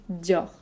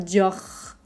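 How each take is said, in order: First: The R is pronounced softly and lightly. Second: The R is pronounced strongly in the throat. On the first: The speaker calls it right. "le R est pas très fort ... Juste Dior" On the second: The speaker calls it wrong. "On va pas faire Dior"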